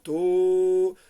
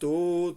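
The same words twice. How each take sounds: First: The syllable is held as one long sound. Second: The syllable is short, followed by a pause. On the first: "Tequía es un sonido largo" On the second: "shvarim son tres sonidos cortos, pausados"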